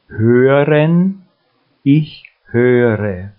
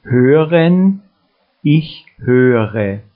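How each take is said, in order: Both takes have the same delivery.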